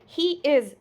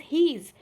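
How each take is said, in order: First: It is said as two separate full words. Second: It is said as one short contracted word. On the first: "he is means he's" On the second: "he is means he's"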